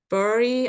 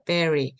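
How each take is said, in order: First: The first vowel sounds like 'uh', following the spelling. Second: The first vowel sounds like 'eh', as in 'berry'. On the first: The speaker calls it wrong. "bury 아니고요" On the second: The speaker calls it right. "발음 주의해 주세요"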